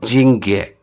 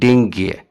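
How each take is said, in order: First: The word begins with a soft J sound. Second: The word begins with a hard D sound. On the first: "इसका जो प्रोनाउंसिएशन है इस तरह है" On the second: "लेकिन स्पेलिंग है"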